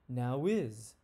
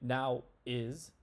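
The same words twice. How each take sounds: First: A W sound links the two words together. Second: The words are said with no W sound between. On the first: The speaker calls it right. "we say now is ... We add that W sound" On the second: The speaker calls it wrong. "we don't say now is"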